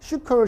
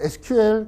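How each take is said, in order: First: It is said as one two-syllable word. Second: It is spelled out as three separate letters. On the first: This is how developers abroad said it. "그 개발자들하고 얘기할 때는 시컬" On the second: This is how it was said when learning in Korea. "저는 이제 에스큐엘이라고 발음을 했는데"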